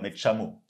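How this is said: It is said in an Argentine accent. "eux, ils vont dire"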